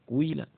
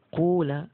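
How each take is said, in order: First: The first vowel blends rounded u into i. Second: The first vowel is a rounded u sound. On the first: "menggabungkan domah dan kasroh" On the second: "dengan ucapan kula, pakainya wawu ya"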